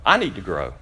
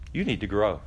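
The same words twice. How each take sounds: First: I need to grow with I pressed hard, falling; confessing his own need, I stressed. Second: You need to grow with the weight on You, falling; the congregation's need, You stressed. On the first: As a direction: turn it on yourself, hit I. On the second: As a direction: point it at the listener, You first. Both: Shown as a demonstration.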